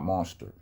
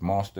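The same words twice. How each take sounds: First: The word ends with an 'er' sound. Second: The word ends with an 'ah' sound. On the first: The speaker calls it wrong. "There are no E R's in any of those words" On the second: The speaker calls it right. "It's an A in monster"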